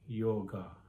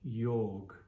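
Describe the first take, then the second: First: The word ends with a final vowel sound. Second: The word ends on a consonant, no final vowel. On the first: The speaker calls it wrong. "It is not yoga" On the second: The speaker calls it right. "the right pronunciation of this Sanskrit word"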